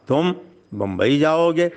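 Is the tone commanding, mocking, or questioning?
mocking. It sounds mocking and full of disbelief. The listener is deemed unable to go. "कहाँ तुम और कहाँ बम्बई, तुम बम्बई कैसे जा सकते हो?"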